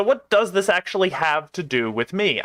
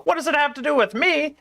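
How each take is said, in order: First: Said in the usual way. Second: Much higher-pitched indignant echo; incredulous echo. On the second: Acted. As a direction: throw the question back, pitched way up. Editor throws the question back.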